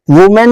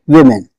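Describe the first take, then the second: First: वुमेन said with "oo" as in "woo-men"; वुमेन as "wu-men", the singular vowel; wrong pronunciation. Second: विमेन said as "wi-men" with a short "i"; विमेन low and falling, short "i" then "men"; correct pronunciation. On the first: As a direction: show the mistake: वुमेन with a rounded "u". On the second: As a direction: correct it: विमेन, first syllable like "win". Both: Shown as a demonstration. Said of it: "वुमेन नहीं".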